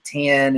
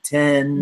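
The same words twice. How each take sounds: First: The word is said with a Southern drawl. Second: The word is said without a Southern drawl. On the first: "I had like the Southern draw, and like I'd say ten" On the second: "instead of ten"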